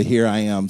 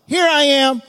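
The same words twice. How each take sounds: First: Said in the usual way. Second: Loud, high proclamation; hammed-up answer; mock Abraham. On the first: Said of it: "the "here I am" stuff". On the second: Abraham answering his son, loud and hammed-up. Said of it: "He's like".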